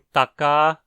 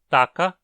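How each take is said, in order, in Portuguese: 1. A vogal final é sustentada por cerca de duas vezes mais tempo. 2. A vogal final é curta. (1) "a vogal final é dita ser longa" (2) "a vogal final é dita ser curta"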